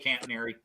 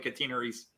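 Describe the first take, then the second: First: It is pronounced the American way. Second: It is pronounced the British way.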